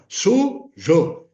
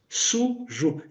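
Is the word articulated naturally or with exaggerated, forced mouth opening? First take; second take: exaggerated; natural. First: It is said with forced, exaggerated articulation. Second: It is said naturally, with little mouth opening. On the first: The speaker calls it wrong. "nós estamos forçando" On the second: The speaker calls it right. "Eu não abri a boca"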